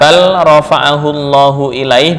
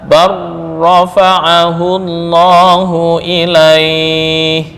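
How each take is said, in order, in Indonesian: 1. Bunyi l terdengar sebelum bunyi r. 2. Bunyi l menyatu menjadi bunyi r yang ganda.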